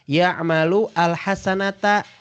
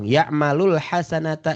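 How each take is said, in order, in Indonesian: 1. Kedua kata itu diucapkan terpisah. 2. Kedua kata itu disambung menjadi satu.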